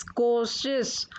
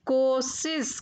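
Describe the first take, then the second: First: Said in the usual way. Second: कोशिश said "kosis"; mispronounced कोशिश. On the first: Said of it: "फिर उनका शुद्ध उच्चारण". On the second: Shown as a demonstration. Teacher showing children the error, कोशिश said "kosis". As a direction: replace both sh sounds in कोशिश with s. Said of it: "अशुद्ध शब्द मैंने रखे हैं".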